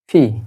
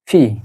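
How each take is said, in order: No difference in how they are said.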